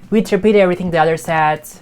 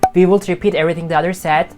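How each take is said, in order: First: The words are contracted into one syllable. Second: Both words are said in full. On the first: The speaker calls it right. "She says" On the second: The speaker calls it wrong. "She doesn't say"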